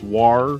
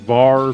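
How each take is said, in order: First: The word begins with a W sound. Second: The word begins with a V sound. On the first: "it's war a lot of times" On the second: "instead of saying var for variable"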